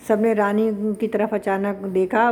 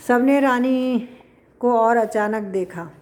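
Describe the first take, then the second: First: Said in the usual way. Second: Poem recitation. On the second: Shown as a demonstration. Teacher reciting the verse line to the class before explaining it.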